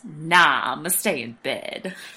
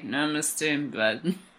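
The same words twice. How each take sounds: First: The phrase is spoken clearly in a normal voice. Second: The phrase is mumbled in a sleepy, unclear voice.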